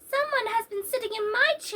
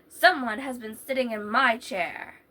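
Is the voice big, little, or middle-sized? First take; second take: little; big. First: It is said in a wee little voice. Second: It is said in a great big voice.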